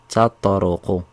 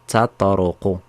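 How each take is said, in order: No difference in how they are said.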